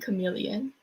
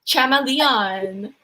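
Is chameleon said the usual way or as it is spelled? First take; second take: usual; as spelled. First: The word has its usual standard pronunciation. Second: The word is sounded out following its spelling. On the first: The speaker calls it right. "before people bullied me into saying chameleon" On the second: The speaker calls it wrong. "That's how it's spelled"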